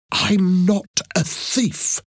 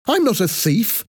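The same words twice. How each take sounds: First: Slow, high, emphatic protest; insistent denial. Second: Quick, high indignant retort with rising end; angry denial. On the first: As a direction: draw out each word to insist. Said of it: "she repeated". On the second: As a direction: protest angrily at normal pace. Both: A narrator's reading.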